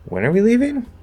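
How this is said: The voice rises at the end. The speaker is checking information already given, maybe surprised. "I ask the W H question with a rising tone"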